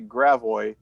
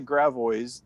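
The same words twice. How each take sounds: First: The name is said in the local way. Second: The name is said in a non-local way. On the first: This is how people in the area say it. "They say Gravois, but it's still, you know, not exactly correct" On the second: This is not how people in the area say it. "They don't say Gravois"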